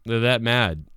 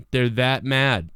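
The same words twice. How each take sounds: First: Said in the usual way. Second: "They're that mad" said slowly, leaning on "mad" with a falling tune; slow emphasis on mad. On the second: Shown as a demonstration. Streamer repeating his point to viewers, slowed with "mad" stressed. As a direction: stretch out "mad" to land the point.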